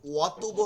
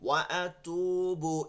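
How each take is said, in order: First: The two words are run together as one. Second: The two words are kept clearly separate. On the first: The speaker calls it wrong. "ওয়াতুবু হবে না।" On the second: The speaker calls it right. "ওয়া এটা আলাদা অক্ষর, আলাদা শব্দ। আতুবু এটা আলাদা শব্দ।"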